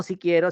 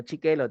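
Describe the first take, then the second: First: Said in the usual way. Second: "chiquelo" said cutesy with ch for s; baby-talk version. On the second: Shown as a demonstration. Teacher contrasting normal and baby talk, cutesy. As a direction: babyish "chiquelo" instead of si quiero.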